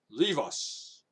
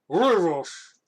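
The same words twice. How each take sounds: First: It is read in his normal voice. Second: It is said in a put-on fat man voice.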